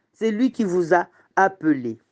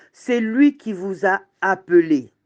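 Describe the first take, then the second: The two takes are said the same way.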